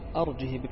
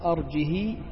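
First: The final h has a short i vowel. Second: The final h has a lengthened i vowel. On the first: "بقصر كسرة كسرة الهاء" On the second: "إشباع كسرة الهاء"

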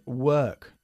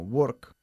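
First: The vowel is a neutral 'er' sound. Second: The vowel sounds like a rounded 'o'. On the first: The speaker calls it right. "Es work" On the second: The speaker calls it wrong. "muchísimos españoles lo pronuncian como work"

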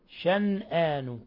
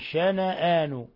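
First: The n sound carries no vowel after it. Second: The n sound is followed by a short a. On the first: "قرأ شعبة والكسائي وغيرهما شنآن بالسكون" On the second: "وقرأ الباقون شنآن"

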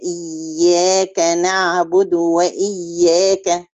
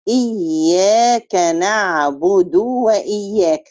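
First: The short vowels are kept short. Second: A short vowel is drawn out into a long one. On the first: The speaker calls it right. "لا هي إياك نعبد وإياك" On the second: The speaker calls it wrong. "زيادة حرف مد وذلك بمط الحركة حتى يتولد منها حرف مد"

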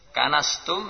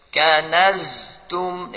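First: The middle consonant is a voiceless s sound. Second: The middle consonant is a voiced z sound. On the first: You have swept it. The speaker calls it wrong. "jangan berubah jadi sin" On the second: You have stored it. The speaker calls it right. "Kanaztum, demikian"

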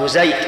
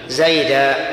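First: The word ends on a bare consonant. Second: The word ends on a long vowel. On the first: "يقفون على المنصوب بالسكون، قبيلة من العرب تسمى ربيعة يقولون" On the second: This is how most Arabs pause on the word. "وبقية العرب يقولون"

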